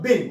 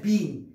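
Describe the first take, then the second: First: "been" with a short e, like "ben". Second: "been" with a long ee, like "bean". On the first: Teacher modelling the correct sound, "been" with short e. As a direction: say "been" to rhyme with "ten". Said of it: "هذه تنطق been وليست been". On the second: Teacher showing the mistake, "been" with long ee. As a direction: stretch "been" to rhyme with "seen". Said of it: "وليست been". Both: Shown as a demonstration.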